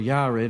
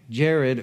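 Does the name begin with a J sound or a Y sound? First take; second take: Y sound; J sound. First: The name begins with a Y sound. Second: The name begins with a J sound.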